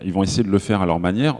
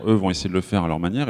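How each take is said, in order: First: Said in the usual way. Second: Quick retake with eux stressed; correcting himself, pushing "eux" forward. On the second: Shown as a demonstration. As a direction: lean on "eux", then rush the rest. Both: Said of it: "non, eux".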